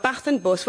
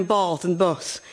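First: "Bath" with short a, "Bus" with oo; original good vowels. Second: "Bath" with long ah, "Bus" with open uh; crap London vowels. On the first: Black Country speaker showing old vowels, short-a "Bath", oo in "Bus". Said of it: "where all the good vowels". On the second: Mocking London fashion, long-ah "Bath" and open "Bus". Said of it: "went a bit crap". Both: Shown as a demonstration.

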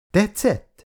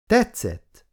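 First: TETSZETT lifted high, then dropping as a question; asking. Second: TETSZETT pitched high, falling firmly; confident. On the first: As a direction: ask TETSZETT with a high, curious swoop. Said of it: "kérdezte Lexa a lányokat". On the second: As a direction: answer TETSZETT high and sure of it. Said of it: "mondta Jane magabiztosan". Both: A narrator's reading.

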